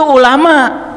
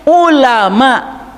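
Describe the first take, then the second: First: It begins with a plain vowel sound. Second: It begins with a throat consonant sound. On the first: The speaker calls it wrong. "Kalau ulama O E" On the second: The speaker calls it right. "Makanya bacanya harus ulama. U. ... Itu ain"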